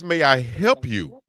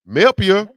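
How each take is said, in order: First: Each word is said separately and fully. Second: The words are squeezed together into one word. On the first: "It's may I help you" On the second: "They say Melpia"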